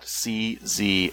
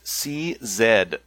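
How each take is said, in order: First: The final letter is said as zee. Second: The final letter is said as zed. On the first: This is the American way. The speaker calls it wrong. "not CZ. We're in Canada last time I checked" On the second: This is the Canadian way. The speaker calls it right. "It's pronounced CZ"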